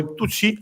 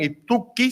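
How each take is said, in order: First: The middle consonant is a soft ch sound. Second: The middle consonant is a hard k sound.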